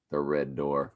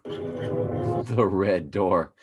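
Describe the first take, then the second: First: Said in the usual way. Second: Very slow, drawn-out words; ominous slow drawl. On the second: Pretend. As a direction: stretch it out like a horror trailer.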